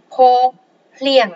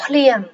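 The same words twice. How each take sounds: First: "khô, plieng" as two separate syllables with a pause between; split into syllables. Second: Said in the usual way. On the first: Shown as a demonstration. Teacher sounding out a Khmer word for learners, syllable by syllable.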